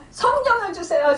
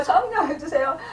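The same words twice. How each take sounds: First: Higher, urgent cry of the first plea; first plea pitched high and eager; fervent prayer. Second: Said in the usual way. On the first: Retold or imitated. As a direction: pray out with rising fervour. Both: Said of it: "막 그러면서 기도를 한 거예요".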